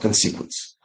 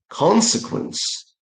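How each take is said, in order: First: The stress is not on the first syllable. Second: The stress is on the first syllable. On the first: The speaker calls it wrong. "That's not consequence" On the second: The speaker calls it right. "The stress should go to the first syllable. So it's consequence"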